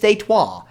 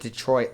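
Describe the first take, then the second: First: Detroit is said with a French pronunciation. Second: Detroit is said with an ordinary English pronunciation.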